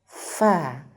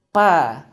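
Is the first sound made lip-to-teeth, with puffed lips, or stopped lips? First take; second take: lip-to-teeth; stopped lips. First: The lower lip touches the upper teeth. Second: The two lips close and then release. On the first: The speaker calls it right. "bibir bawah, nyentuh ujung gigi seri atas" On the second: The speaker calls it wrong. "dua bibir yang disambung"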